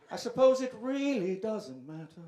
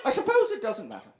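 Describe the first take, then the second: First: "I suppose" said quieter and softer, as a hushed mock reflection; mock-solemn hush; softer mock musing. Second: Said in the usual way. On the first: Shown as a demonstration.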